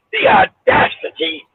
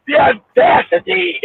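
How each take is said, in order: First: High, slow "The audacity" with the stress laid on it; imitating the emphatic way Joby says it. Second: Slow, drawn-out "The audacity", each syllable leaned on; mock-indignant the audacity; emphatic the audacity. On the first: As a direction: lift "The audacity" up high and draw it out. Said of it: "till Joby". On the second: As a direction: drag out "The audacity" with heavy emphasis. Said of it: "says it all the time".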